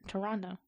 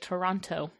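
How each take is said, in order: First: The second T is dropped. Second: The second T is clearly pronounced. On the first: The speaker calls it right. "It just feels" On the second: The speaker calls it wrong. "I know there's a T there, but then I'd be like"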